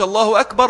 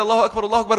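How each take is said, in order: First: "الله أكبر" on its own, higher, then stopping; separate unit. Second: "الله أكبر، الله أكبر" run together, higher pitch; one joined phrase. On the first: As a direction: say one "الله أكبر" and break off after it. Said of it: "ويسكت". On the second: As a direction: link both "الله أكبر" with no break. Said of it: "جملة واحدة". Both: Shown as a demonstration.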